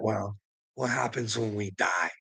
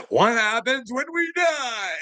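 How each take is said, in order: First: Said in the usual way. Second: Much higher, slow drawn-out shout; shouted question. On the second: Real, not acted. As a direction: bellow the question at the rich. Question then shouted repeat.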